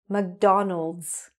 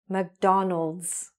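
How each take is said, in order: First: The name ends with an s sound. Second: The same.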